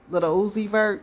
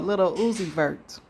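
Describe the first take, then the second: First: The name is said quickly, run together. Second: The name is said at a normal, unhurried pace.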